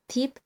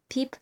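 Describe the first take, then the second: Both takes have the same delivery.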